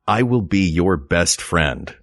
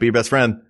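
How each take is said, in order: First: It is said slowly and earnestly, meaning it. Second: It is said quickly and casually, like an idiom.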